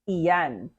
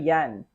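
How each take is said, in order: First: The word is said with two syllables. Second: The word is said with one syllable. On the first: "magkano and then iyan" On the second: "you remove the first syllable in iyan"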